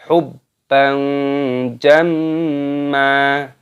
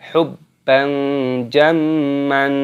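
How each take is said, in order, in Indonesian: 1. Kata terakhir berakhir dengan vokal panjang. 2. Kata terakhir berakhir dengan bunyi n. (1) "dibaca mata iwad di sini, maka dibaca hubban jamma" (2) "Jangan dibaca hubban jamman, seperti itu salah"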